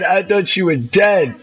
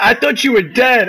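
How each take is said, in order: First: Said in the usual way. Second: Excited shout. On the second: Real, not acted. Relieved shout to teammate.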